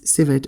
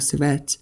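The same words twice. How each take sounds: First: The word is said with an English pronunciation. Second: The word is said with a French pronunciation. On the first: "depending on whether you pronounce it in English or French" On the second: "depending on whether you pronounce it in English or French"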